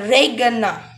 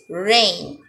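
First: The G sound is pronounced. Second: The G sound is silent. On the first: The speaker calls it wrong. "will not say regana, it's incorrect" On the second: The speaker calls it right. "So we have to say this rain"

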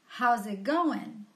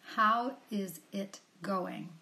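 First: All the words run together in connected speech. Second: Each word is said separately and fully. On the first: "when a native speaker will say it, then he's going to say something that sounds like" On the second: "Here's the expression again"

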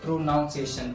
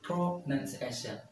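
First: The second syllable sounds like 'noun'. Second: The second syllable sounds like 'nun'. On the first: The speaker calls it wrong. "Coffee students इसको pronunciation कहते हैं" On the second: The speaker calls it right. "But this is pronunciation"

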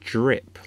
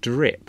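First: It begins with a slushy 'jr' sound. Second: It begins with a clear 'dr' sound. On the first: The speaker calls it wrong. "I'd say drip, like, you know, J-R-I-P" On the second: The speaker calls it right. "instead of saying drip"

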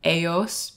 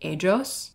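First: The middle consonant sounds like an English y. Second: The middle consonant sounds like an English j. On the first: "say j instead of y" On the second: "people in Venezuela will say j instead of y"

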